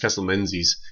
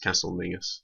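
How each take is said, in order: First: The name is said as spelled, 'Men-zies'. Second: The name is said as 'Ming-us'. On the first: The speaker calls it wrong. "because it's spelt Menzies. It's not" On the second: The speaker calls it right. "it's Castle Mingus"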